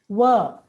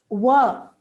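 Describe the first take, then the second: Both takes have the same delivery.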